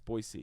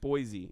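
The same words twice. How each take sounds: First: The middle consonant is a hissing s sound. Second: The middle consonant is a buzzing z sound. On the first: The speaker calls it right. "it's Boise. Think of it as B O Y hyphen S E E" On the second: The speaker calls it wrong. "They don't like Boise"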